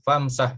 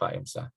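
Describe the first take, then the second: First: The two parts run together without a glottal stop. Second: The two parts are separated by a glottal stop. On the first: "dijadikan hamzahnya wasal ini, famsah gitu ya" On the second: "tidak fa imsah. Tapi kalau dibaca fa imsah juga boleh"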